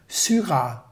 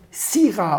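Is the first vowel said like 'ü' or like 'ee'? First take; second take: ü; ee. First: The y is said as a rounded ü sound. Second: The y is said as an ee sound. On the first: The speaker calls it wrong. "Er sagt immer" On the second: The speaker calls it right. "Y wird I ausgesprochen"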